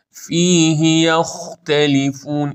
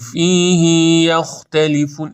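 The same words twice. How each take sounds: First: Slow chanted فیه یختلفون with brief "hi"; higher, measured فیه یختلفون; correct short i. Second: فیه یختلفون with "hii" dragged out; too-long vowel ending فیه; wrong overlong i. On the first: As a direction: keep the end of فیه to one beat. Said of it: "این درسته". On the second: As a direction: stretch the end of فیه to "fiihii". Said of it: "این اشتباهه". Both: Shown as a demonstration.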